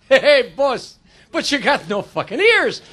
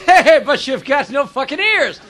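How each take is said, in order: First: Italian guy, slow and drawn out; slow, blurted remark in an Italian accent. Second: Blunt Irishman, drawn out; slow, blurted remark with an Irish lilt; Irish accent. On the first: Italian job applicant answers the earless boss, blunt Italian accent. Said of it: "The Italian guy says". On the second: Irish job applicant answers the earless interviewer, blunt Irish accent. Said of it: "The Irish guy says". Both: Acted.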